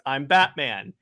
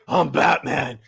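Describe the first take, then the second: First: It is said in a casual, offhand tone. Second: It is said in a menacing, intimidating tone.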